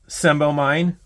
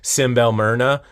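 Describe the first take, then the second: First: The name ends with a 'mine' sound. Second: The name ends with an added 'uh' sound. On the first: The speaker calls it wrong. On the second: The speaker calls it right.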